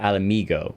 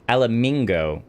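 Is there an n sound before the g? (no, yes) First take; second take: no; yes. First: No n sound comes before the g. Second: An n sound comes before the g. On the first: The speaker calls it right. "instead of Alamigo" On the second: The speaker calls it wrong. "I keep throwing an N in there"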